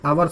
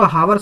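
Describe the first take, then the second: First: The word starts with a vowel sound. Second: The word starts with an h sound. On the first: The speaker calls it right. "आवर्स बोलते हैं" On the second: The speaker calls it wrong. "इसको हावर्स नहीं बोलते"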